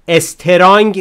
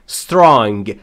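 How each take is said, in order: First: An extra vowel sound comes before the s. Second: The word starts directly with the s sound. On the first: The speaker calls it wrong. "استرانگ نمیگم" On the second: The speaker calls it right. "strong اولش ا نداره"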